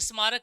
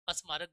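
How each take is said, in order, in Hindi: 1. शब्द सीधे s की आवाज़ से शुरू होता है। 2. s की आवाज़ से पहले एक छोटा स्वर जोड़ा जाता है। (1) "स्मारक इज द राइट" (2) "अस्मारक गलत है"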